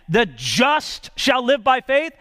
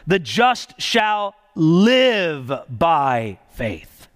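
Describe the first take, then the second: First: The stress is on the word just. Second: The stress is on the word live.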